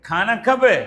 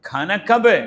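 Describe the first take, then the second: No difference in how they are said.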